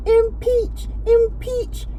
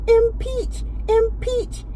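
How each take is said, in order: Both takes have the same delivery.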